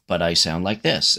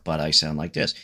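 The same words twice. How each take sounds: First: Lightly voiced elf, lower pitch; a hint of an elf voice. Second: Lightly voiced dwarf, low pitch; a hint of a low dwarf voice. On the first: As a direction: sketch an elf character in passing. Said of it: "it's an elf". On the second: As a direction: sketch a dwarf character, pitched down. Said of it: "now ... it's a dwarf". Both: Shown as a demonstration.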